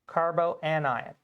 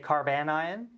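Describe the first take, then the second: First: It is said fully, with four syllables. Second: It is said quickly, with three syllables.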